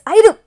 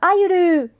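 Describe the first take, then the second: First: The final vowel stops abruptly with a catch. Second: The final vowel is drawn out long. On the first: "your voice hits a hits a wall right after you scream the word" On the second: "instead of like a a long sound to it"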